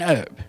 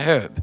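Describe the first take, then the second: First: The word starts without any H sound. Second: The word starts with an audible H sound. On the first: The speaker calls it wrong. "You call it an herb" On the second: The speaker calls it right. "it has an H in it. It's called a herb"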